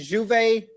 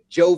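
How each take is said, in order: First: The name is said in a non-American way. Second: The name is said in an American way.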